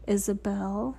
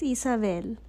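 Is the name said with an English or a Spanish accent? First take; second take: English; Spanish. First: The name is said with an English accent. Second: The name is said with a Spanish accent. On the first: The speaker calls it wrong. "That's the gringo way of pronouncing it" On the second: The speaker calls it right. "But it's Isabel"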